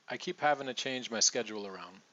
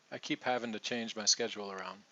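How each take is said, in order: First: "having to" blended fast as "havin' a"; reduced to, quick. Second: "having to" with the T as a soft D, quick; soft D version. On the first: Teacher modelling fast reduced speech, quick and smooth. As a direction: run it together quickly, to becomes a. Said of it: "okay so we got". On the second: Teacher trying the soft D in the sentence, quick. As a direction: tap the T of to into a D. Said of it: "if we try that D there". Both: Shown as a demonstration.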